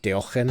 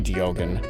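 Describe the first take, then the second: First: The name is pronounced with Dutch-like sounds. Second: The name is pronounced with English-like sounds. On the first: "the actual like Dutch pronunciation was like Diogen" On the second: "I'm saying the the closest English approximation I can"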